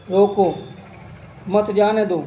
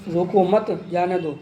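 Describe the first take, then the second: First: "रोको" alone, clear pause, then "मत जाने दो" together; pause after रोको. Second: "रोको मत" together, short break, then "जाने दो"; pause after मत. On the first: Teacher showing how a pause changes meaning, pause after "रोको". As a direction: break right after "रोको", keep "मत जाने दो" as one phrase. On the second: Teacher showing how a pause changes meaning, pause after "मत". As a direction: join "मत" to "रोको", break before a falling "जाने दो". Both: Shown as a demonstration. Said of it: "बीच में रुकना".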